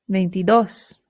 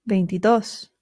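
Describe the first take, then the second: The two takes are said the same way.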